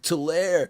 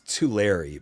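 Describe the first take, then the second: First: The name does not end sounding like 'Larry'. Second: The name ends sounding like 'too Larry'. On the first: The speaker calls it wrong. "I said it wrong" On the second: The speaker calls it right. "It's Tulare"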